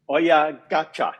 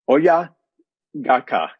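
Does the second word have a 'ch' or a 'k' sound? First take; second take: ch; k. First: The second word has a 'ch' sound. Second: The second word has a hard 'k' sound. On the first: The speaker calls it right. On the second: The speaker calls it wrong.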